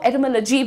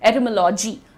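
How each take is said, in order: First: The 'lo' syllable has a short 'uh' vowel. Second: The 'lo' syllable has an open 'aw' vowel. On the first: "बहुत सारे लोग इसको एटमोलॉजी भी बोलते हैं, लजी" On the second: "Indian accent से मजबूर मैं इसे बोलूंगी एटमोलॉजी, लॉजी"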